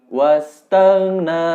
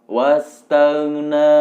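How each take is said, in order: The two takes are said the same way.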